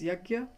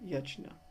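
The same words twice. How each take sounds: First: It is said the North Indian way. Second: It is said the rest-of-India way.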